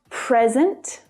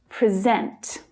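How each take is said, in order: First: The stress is on the first syllable. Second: The stress is on the second syllable. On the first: It is the noun, a gift. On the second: It is the verb, to show.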